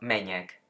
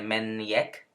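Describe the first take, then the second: First: The n and j merge into one ñ sound. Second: The n and j are said as separate sounds. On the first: The speaker calls it right. "sino meñek" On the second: The speaker calls it wrong. "No se dice menjek"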